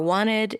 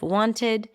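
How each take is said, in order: First: The t after the n is dropped. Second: The t after the n is pronounced. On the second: "instead of"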